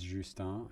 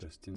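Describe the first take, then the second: First: The name is pronounced the French way. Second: The name is pronounced the English way. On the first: The speaker calls it right. "tous nos confrères francophones disent Justin" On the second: The speaker calls it wrong. "Justin serait peut-être considéré comme un anglicisme"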